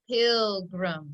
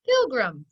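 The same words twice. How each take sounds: First: PILGRIM drawn out in two even syllables; slow blending. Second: PILGRIM quick, as one whole word; said fast. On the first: Teacher putting it together for pupils, slowly blending PILGRIM. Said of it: "Let's put it together". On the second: Teacher telling pupils to say it fast, PILGRIM said quickly. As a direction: snap "Pilgrim" out fast and firm. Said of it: "Say it fast". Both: Shown as a demonstration.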